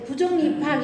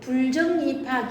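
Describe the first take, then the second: First: The first syllable is bu, with no final L. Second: The first syllable is bul, ending in L. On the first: The speaker calls it right. "부정 입학 이러지" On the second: The speaker calls it wrong. "불정 입학 이러지 않잖아요"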